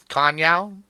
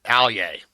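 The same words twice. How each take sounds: First: Kanye said right, KAHN-yay; name it properly, Kanye as KAHN-yay; careful correct Kanye. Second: Alye said as AL-yay, a joking mispronunciation; mangled name. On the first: Real, not acted. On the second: Shown as a demonstration. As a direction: say Alye, AL-yay, as a deliberate botch. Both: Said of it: "we'll work on that".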